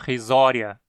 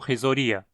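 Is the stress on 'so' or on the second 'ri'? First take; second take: so; ri. First: The stress falls on the syllable 'so'. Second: The stress falls on the second 'ri'. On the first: The speaker calls it right. "o i na penúltima sílaba é sim curto, justificando a pronúncia risória" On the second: The speaker calls it wrong. "e não risoria"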